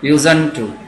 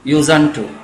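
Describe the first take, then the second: Both takes have the same delivery.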